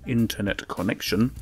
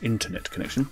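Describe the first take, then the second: First: The phrase is spoken slowly. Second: The phrase is spoken quickly.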